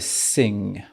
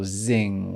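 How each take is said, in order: First: The word begins with a hissing s sound. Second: The word begins with a buzzing z sound. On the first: "On ne veut pas entendre de sing" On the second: "ou zing"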